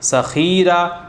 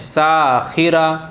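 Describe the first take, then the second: First: The vowel of the second syllable is drawn out. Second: The vowel of the first syllable is drawn out. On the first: "खा को खींच दिया।" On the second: "सीन को खींच दिया।"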